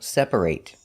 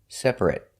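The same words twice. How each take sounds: First: The last syllable is a full 'ate' sound. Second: The last syllable is a short 'et' sound. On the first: The word is used as a verb. "If it's a verb, it's pronounced ate" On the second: The word is used as an adjective. "an adjective, for example, it's pronounced et"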